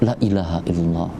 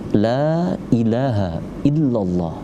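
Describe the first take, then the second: First: The vowel in the first word is cut short. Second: The vowel in the first word is held long. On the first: Truly there is a god besides God. The speaker calls it wrong. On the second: There is no god but God. The speaker calls it right.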